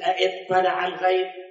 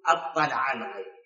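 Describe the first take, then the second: First: The word begins with two vowel sounds, a then i. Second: The word begins with one vowel sound, a only. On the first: "هي بالأصل اطلع الغيب" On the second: "الله حذفها تخفيفا فسواها شنو؟"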